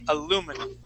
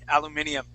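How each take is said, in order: First: It has four syllables, without the extra 'ee' sound. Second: It has five syllables, with an extra 'ee' sound. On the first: "in the United States we say aluminum" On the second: "in other places they would say"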